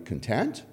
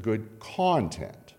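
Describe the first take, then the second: First: "content" stressed on the end, con-TENT; stress on second syllable. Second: "content" stressed on the front, CON-tent; stress on first syllable. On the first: Preacher showing the word "content" stressed on the end. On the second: Preacher showing the noun "content" stressed on the front. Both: Shown as a demonstration. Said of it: "how you say it, it means two different things".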